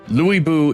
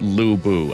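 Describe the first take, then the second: First: The first vowel is a front rounded ü sound. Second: The first vowel is a plain back u sound. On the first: The speaker calls it right. "I do think they're actually trying to pronounce the names correctly based on the Chinese" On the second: The speaker calls it wrong. "it's not pronounced Lu Bu. I personally do that"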